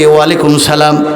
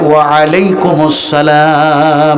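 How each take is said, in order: First: The words are run together as walaikum salam. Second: The words are split as wa alaikum assalam. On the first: The speaker calls it wrong. "আমরা বলেছি ওয়ালাইকুম সালাম, কিন্তু ওয়ালাইকুম সালাম নয়" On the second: The speaker calls it right.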